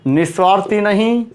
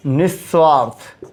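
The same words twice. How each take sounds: First: निस्वार्थी with long ई, stress on नहीं; wrong form named. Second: निस्वार्थ said slowly, ending on थ, falling; correct form. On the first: Teacher rejects निस्वार्थी, stressing नहीं. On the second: Teacher gives निस्वार्थ as correct, slow and falling. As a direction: drop the ई: निस्वार्थ. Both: Shown as a demonstration.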